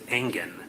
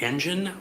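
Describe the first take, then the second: First: It does not sound like the word engine. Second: It sounds like the word engine. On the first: The speaker calls it right. "or is it Engen?" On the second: The speaker calls it wrong. "like an engine"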